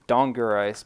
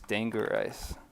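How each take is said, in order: First: The first vowel is an 'ah' sound. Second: The first vowel is not an 'ah' sound. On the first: "A can be pronounced as ah, so I said Dongerice" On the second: "I guess it's Dangerice"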